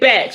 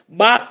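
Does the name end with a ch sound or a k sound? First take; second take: ch sound; k sound. First: The name ends with a ch sound. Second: The name ends with a k sound. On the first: The speaker calls it right. "but it's Batch, y'all" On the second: The speaker calls it wrong. "a lot of people understandably pronounce it as they do the composer's name"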